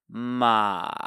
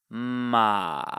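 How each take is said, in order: First: The pitch dips down then rises slightly. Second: The same.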